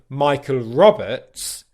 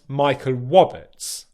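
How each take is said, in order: First: The surname starts with a clear R sound. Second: The surname starts with a W sound. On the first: The speaker calls it right. "which is what my name is" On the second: The speaker calls it wrong. "instead I'd pronounce"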